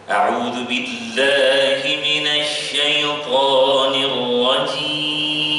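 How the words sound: The word syaithan is said low and lightly.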